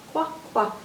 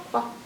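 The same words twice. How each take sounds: First: Said in the usual way. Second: "quack" cut short and clipped off at the end, as "wa"; like a baby duck who can't say "quack" yet. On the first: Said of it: "the sound that Q says". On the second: Pretend. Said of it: "a little baby duck who can't say quack yet".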